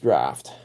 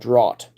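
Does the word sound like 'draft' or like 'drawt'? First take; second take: draft; drawt. First: The word is said to rhyme with craft. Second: The word is said with a different vowel. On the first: The speaker calls it right. "But no, it's draft" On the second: The speaker calls it wrong. "I used to pronounce that in my head draught"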